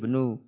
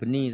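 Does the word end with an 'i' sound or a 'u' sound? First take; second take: u; i. First: The word ends with a 'u' vowel. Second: The word ends with an 'i' vowel. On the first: The speaker calls it right. "tapi benu" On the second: The speaker calls it wrong. "Bukan beni"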